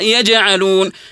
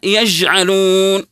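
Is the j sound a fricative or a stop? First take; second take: stop; fricative. First: The j sound is a sharp, held stop. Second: The j sound is soft and continuous. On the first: The speaker calls it right. "الصحيح أن نقرأها يجعلون" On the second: The speaker calls it wrong. "يجي واحد يقرأها يجعلون، وهذا خطأ"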